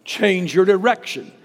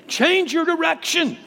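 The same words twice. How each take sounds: First: Firm pulpit call to change course; preaching. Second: Pitched far higher, ringing pulpit climax; climactic preaching cry. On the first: Preacher urging the congregation, strong and firm. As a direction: declare it to the congregation. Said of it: "It means change your mind". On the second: Preacher pleading at the peak of the sermon, high and ringing. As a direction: lift it into a high urgent plea. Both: Acted.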